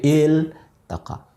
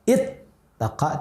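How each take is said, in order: First: The L is pronounced clearly before the T. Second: The L merges into the T, giving a doubled T. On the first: The speaker calls it right. "tapi il taqa" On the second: The speaker calls it wrong. "tidak it taqa"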